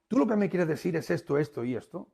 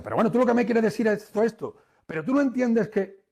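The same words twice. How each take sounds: First: Said in the usual way. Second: Higher, louder and fast, arguing; heated rebuttal. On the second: Shown as a demonstration. Trainer shows the audience a heated wrong reflection, heated rebuttal. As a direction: fire back while worked up. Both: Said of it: "no, no".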